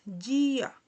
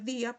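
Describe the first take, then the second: First: It begins with a j-like sound. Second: It begins with a plain d sound. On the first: The speaker calls it right. "se lee correctamente en portugués dia" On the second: The speaker calls it wrong. "podemos leer día, pero no"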